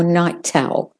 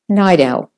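First: "night owl" in British RP, with a clear aspirated T kept apart from "owl", a little slower; a careful RP "night owl" with a crisp T. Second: "Night owl" said as "nigh-dowl", the T becoming a flat D that links straight into "owl"; flapped T. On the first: Teacher contrasting the British RP "night owl" with a crisp T. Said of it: "if you're doing the received pronunciation". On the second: Teacher modelling the American linked "Night owl" with a flat D. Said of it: "it devolves to the D, the flat D". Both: Shown as a demonstration.

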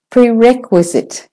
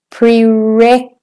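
First: Prerequisite with REQ higher and stressed. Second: Prerequisite split after a long, high REQ; lengthened RE. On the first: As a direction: say "prerequisite" as "pre-REQ-wisit". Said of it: "is the main stressed". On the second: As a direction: stretch "req" in "Prerequisite", pause, then "uisite". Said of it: "If you make that longer". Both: Shown as a demonstration.

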